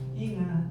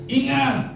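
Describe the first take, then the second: First: It is said mildly, without exclamatory force. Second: It is said as a sharp, forceful exclamation. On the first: The speaker calls it wrong. "bukan gitu" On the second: The speaker calls it right. "kata seru"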